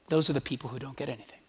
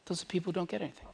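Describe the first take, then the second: First: Said in the usual way. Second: Softer, fast restatement. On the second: Shown as a demonstration. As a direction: repeat it much softer and quicker.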